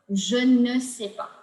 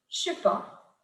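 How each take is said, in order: First: The word ne is pronounced in full. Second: The word ne is dropped entirely.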